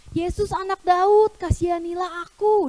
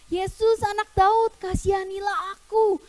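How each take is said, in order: First: Raised, higher calling out; loud cry. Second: High, sustained calling out; louder, insistent cry. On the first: Blind man calls to Jesus for mercy, crying out loudly. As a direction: call out for mercy, a moderate shout. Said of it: "Dia teriak dengan keras". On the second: Blind man keeps calling Jesus, insistent high cry. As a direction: call out higher, refusing to give up. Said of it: "Dia teriak makin kenceng". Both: Acted.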